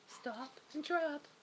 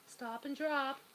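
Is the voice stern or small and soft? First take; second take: small; small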